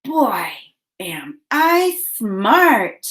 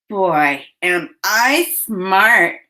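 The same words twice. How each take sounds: First: Put-on slow count-along "Boy, am I smart"; separated, stretched words for "Boy, am I smart". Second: Said in the usual way. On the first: Shown as a demonstration. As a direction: say "Boy, am I smart" slowly with pauses between words. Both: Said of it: "Say it with me".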